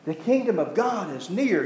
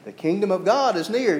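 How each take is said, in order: First: It is said in a warm, reassuring tone. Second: It is said in a stern, warning tone. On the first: It is good news for those who accepted. "You've accepted Jesus Christ. And He's coming" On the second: It is a threat to those who rejected. "You better get your stuff right"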